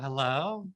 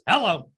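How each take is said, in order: First: It sounds warm and friendly, like an amiable. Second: It sounds curt and businesslike, like a driver.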